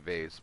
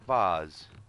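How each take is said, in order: First: It uses the widely used pronunciation of vase. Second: It uses the less widespread pronunciation of vase. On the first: This is how most people say it. "I think most people say vase" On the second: This is how the speaker was raised to say it. "we were told to pronounce it vase"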